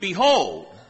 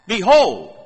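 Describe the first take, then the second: First: The word is said in a calm reading tone. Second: The word is said with strong, exclaiming force.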